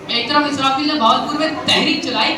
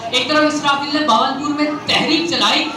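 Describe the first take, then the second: No difference in how they are said.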